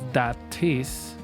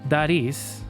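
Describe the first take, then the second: First: The T is a crisp, clear stop. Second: The T is a quick, soft flap. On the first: "like uh, it would normally sound in British English" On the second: "the American sound of the bouncing T"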